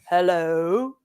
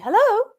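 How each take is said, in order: First: It is said in a very deep male voice. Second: It is said in a nice, gentle voice.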